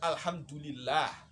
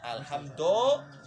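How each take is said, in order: First: The vowel after 'hamd' sounds like u. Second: The vowel after 'hamd' sounds like o. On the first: The speaker calls it right. "Harusnya kan" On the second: The speaker calls it wrong. "Do do do"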